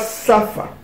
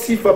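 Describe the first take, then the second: First: The first vowel is an 'a' sound. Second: The first vowel is an 'i' sound. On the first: This is the later Yiddish pronunciation. The speaker calls it wrong. "pas Safa, comme on le prononce en Yiddish" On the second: This is the older Hebrew pronunciation. The speaker calls it right. "Ils prononcent Sifa"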